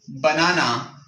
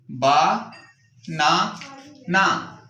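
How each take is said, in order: First: Said in the usual way. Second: "बा, ना, ना" as three separate beats with pauses; broken into syllables. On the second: Shown as a demonstration. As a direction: say "बा", "ना", "ना" one piece at a time. ("बा, ना, ना" टुकड़ों में तोड़कर, रुक-रुक कर) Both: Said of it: "छोटे छोटे पीसेस में तोड़ देते हैं".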